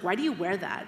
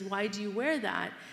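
First: The question sounds hostile and rhetorical. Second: The question sounds genuinely curious. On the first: The asker is challenging the choice, not seeking an answer. "you have to pick up the tone. If someone's like" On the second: The asker sincerely wants to know the reason. "If someone's really curious and says"

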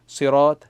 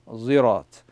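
First: It begins with a heavy, emphatic s sound. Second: It begins with a z sound. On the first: "so Sad and Seen" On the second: "and a Zirat"

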